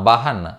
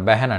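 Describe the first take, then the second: First: The first vowel is an open 'a' sound. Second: The first vowel is an 'e' sound. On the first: It follows the written form. "బహన్ అని ఉందనుకోండి" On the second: This is how native speakers say it. "కానీ చెప్పేటప్పుడు బెహన్ అంటారు"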